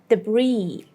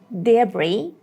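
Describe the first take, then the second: First: The stress is on the second syllable. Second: The stress is on the first syllable. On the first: "in the American pronunciation, the second part is stronger" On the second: "in the British pronunciation, the first syllable is the main syllable"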